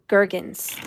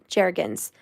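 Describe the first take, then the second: First: The name begins with a hard G sound. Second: The name begins with a soft J-like sound. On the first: "A hard G like gurgle" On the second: "Am I saying that right?"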